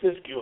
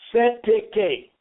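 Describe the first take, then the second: First: The term sounds like 'siskiyou'. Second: The term sounds like 'setake'. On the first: This is how the speaker pronounces it. "I call it Siskiyou account" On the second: This is how others pronounce it. "They pronounce it Setake"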